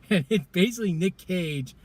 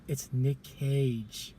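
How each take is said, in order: First: Said in the usual way. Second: Dramatic reveal. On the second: Real, not acted. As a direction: let the name land slowly. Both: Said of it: "You wouldn't believe it".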